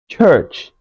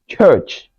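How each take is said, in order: The two takes are said the same way.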